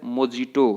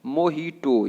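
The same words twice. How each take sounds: First: मोजिटो with a j sound in the middle; मोजिटो read as spelt, with a hard j; wrong pronunciation. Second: मोहिटो with an h sound, "mo-HEE-to"; correct pronunciation. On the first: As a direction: say मोजिटो, "mo-JEE-to", slowly. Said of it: "ये तरीका गलत है". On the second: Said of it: "आपको क्या बोलना है?". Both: Shown as a demonstration.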